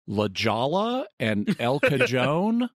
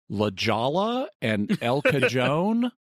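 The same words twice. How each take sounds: First: The names get an English-style mispronunciation. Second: The names get an English-style mispronunciation.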